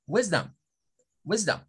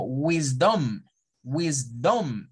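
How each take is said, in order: First: "wisdom" as WIS-dum, pitch up then down; stress on first syllable. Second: "wisdom" with a full Spanish O, wis-DOM; read as Spanish. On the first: Teacher repeats the correct word, first syllable stressed. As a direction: hit "wis" and drop "dom" to a quick "dam". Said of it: "en la primera sílaba subir mi tono de voz y en la segunda bajarlo". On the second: Teacher imitates learners' mistake, reading it as Spanish. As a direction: give "wisdom" a round, drawn-out "dom". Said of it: "Cuando nosotros lo leemos como español". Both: Shown as a demonstration.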